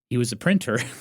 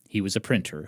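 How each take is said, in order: First: It is said with excited, lively energy. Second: It is said with calmer, lower energy. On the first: The speaker calls it wrong. "You sound too excited" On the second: The speaker calls it right. "let me tone it down"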